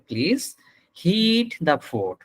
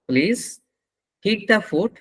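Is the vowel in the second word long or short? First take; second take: long; short. First: The vowel in the second word is long. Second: The vowel in the second word is short. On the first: It asks for the food to be warmed. The speaker calls it right. "ওই জায়গাটায় টান হবে" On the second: It sounds like asking to hit the food. The speaker calls it wrong. "টান না দিলে ভুল হয়ে যাচ্ছে"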